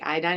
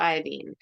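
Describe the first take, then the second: First: The last syllable sounds like 'dine'. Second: The last syllable sounds like 'dean'. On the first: This is the usual way people say it. "we say" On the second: This matches the other halogen names. "instead of"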